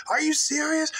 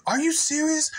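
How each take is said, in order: First: Mock outraged woman, repeated. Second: Mock outraged woman.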